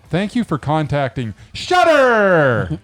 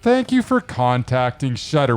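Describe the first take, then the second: First: It is read with exaggerated enthusiasm. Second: It is read in a plain, flat way.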